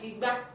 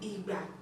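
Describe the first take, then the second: First: The tones go re then mi. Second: The tones go do then do. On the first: It means calabash. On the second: It means time.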